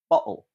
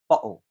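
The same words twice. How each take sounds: First: The middle consonant is a glottal stop. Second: The same.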